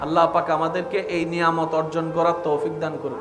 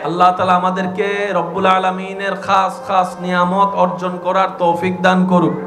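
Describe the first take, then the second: First: It is said at normal, softer loudness. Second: It is said louder than before.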